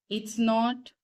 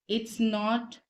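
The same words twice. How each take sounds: Both takes have the same delivery.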